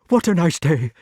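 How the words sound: It is said breathlessly, as if frightened.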